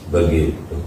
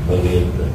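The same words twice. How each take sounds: The two takes are said the same way.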